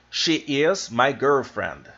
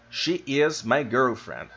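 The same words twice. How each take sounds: The two takes are said the same way.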